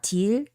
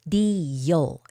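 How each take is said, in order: First: The final L is plain, with no glide. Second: The final L has a slight Y-like glide. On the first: The speaker calls it wrong. "it's not til" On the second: The speaker calls it right. "make a little bit of Y sound with L"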